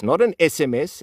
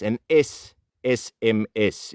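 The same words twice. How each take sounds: First: S M S said quickly and lightly; a quick S M S, no weight on the letters; contrast stress. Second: S S M S spelled out slowly, each letter stressed. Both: Shown as a demonstration.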